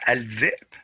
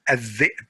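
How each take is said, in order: First: Al-dhi'b with the l sounded; al-dhi'b with a clear l; wrong al-dhi'b. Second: Al-dhi'b said as adh-dhi'b, l merged into doubled dh; al-dhi'b with the l assimilated; correct adh-dhi'b. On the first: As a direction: keep the l in al-dhi'b as a mistake. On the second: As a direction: drop the l in al-dhi'b. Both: Shown as a demonstration.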